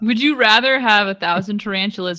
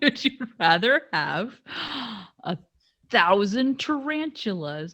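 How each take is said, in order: First: It is spoken at a normal, quicker pace. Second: It is spoken at a noticeably slower pace.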